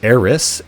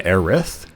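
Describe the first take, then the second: First: The name ends with an S sound. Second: The name ends with a TH sound. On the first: This is the UK version of the name. "in the U K, it's Eris with an S at the end" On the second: This is the US version of the name. "in the U S, it's uh, uh with a T H"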